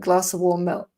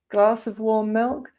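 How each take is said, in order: First: No v sound follows glass. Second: A faint v sound follows glass. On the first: "you might also just hear glasser" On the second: "You'll hear possibly a faint v sound"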